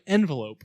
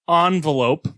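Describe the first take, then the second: First: The first syllable sounds like 'en'. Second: The first syllable sounds like 'on'. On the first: "the right way with an E" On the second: "with an O"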